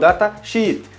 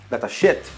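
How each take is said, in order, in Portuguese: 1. A vogal em 'sheet' é um ee longo. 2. A vogal em 'sheet' é um i curto. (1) "você pronuncia com um I bem estendido" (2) "ele vai entender que são dados de merda"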